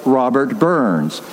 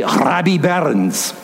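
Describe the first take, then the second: First: Said in the usual way. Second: Put-on slow Scottish accent with rolled R. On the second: Preacher quoting his father's name for the poet, Scottish accent. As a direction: say it as a Scot would. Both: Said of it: "or as he would say".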